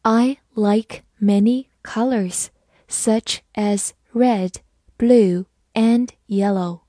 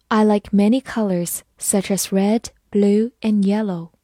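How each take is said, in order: First: "I like many colors, such as red, blue, and yellow" slowly, word by word; slow reading. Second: Said in the usual way. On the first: Shown as a demonstration. Teacher reads "I like many colors, such as red, blue, and yellow" along with learners, slow reading. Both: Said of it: "我们慢慢来读".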